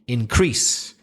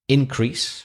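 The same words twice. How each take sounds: First: The stress is on the second syllable. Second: The stress is on the first syllable. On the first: It is used as a verb. "if it's a verb, you're going to stress the second syllable" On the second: It is used as a noun. "if it's a noun, you'll probably stress the first syllable"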